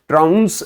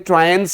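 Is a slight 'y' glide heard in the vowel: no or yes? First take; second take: no; yes. First: The vowel has no 'y' glide. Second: The vowel has a slight 'y' glide. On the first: The speaker calls it wrong. "तो आप बिल्कुल गलत हैं" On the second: The speaker calls it right. "हल्की सी यह की आपको आवाज सुनाई देगी"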